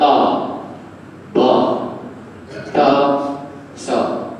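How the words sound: The letter names are said with an 'a' vowel. This is how northern speakers read it, very standard. "Kalau belah utara ... dia baca baku sangat pula dah"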